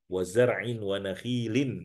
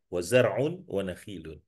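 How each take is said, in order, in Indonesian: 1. Akhiran kata itu memakai vokal i. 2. Akhiran kata itu memakai vokal u. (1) "bil kasr"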